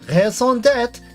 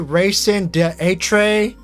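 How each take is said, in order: First: It is pronounced the French way, French R. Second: It is pronounced in an anglicized, mangled way. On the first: The speaker calls it right. "You know how long it took for me to master the French R?" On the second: The speaker calls it wrong. "pronounce it wrong on purpose"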